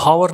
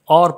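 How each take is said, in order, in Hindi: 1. इस शब्द की शुरुआत h की आवाज़ से होती है। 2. इस शब्द की शुरुआत स्वर की आवाज़ से होती है। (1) "इसको हावर नहीं पढ़ेंगे" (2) "और पढ़ेंगे, ओ की आवाज़ निकलेंगी, एच साइलेंट है"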